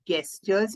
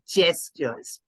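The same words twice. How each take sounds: First: The word starts with a hard G sound. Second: The word starts with a J sound. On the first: The speaker calls it wrong. "It's not gestures" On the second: The speaker calls it right. "spelled with G but pronounced with J"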